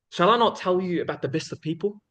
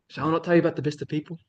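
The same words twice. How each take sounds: First: Measured question, held open at the end; storytelling suspense. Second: Said in the usual way. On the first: Acted. Speaker quoting the Prophet's question to the people, storytelling suspense. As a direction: build suspense with an unhurried, rising question. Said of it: "sense of storytelling and sus-, suspense when he'd talk".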